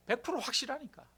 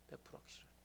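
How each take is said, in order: First: Said in the usual way. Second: 백 프로 확실하니까 whispered with no voice; whispered repeat. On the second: Shown as a demonstration. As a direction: drop to a hushed whisper.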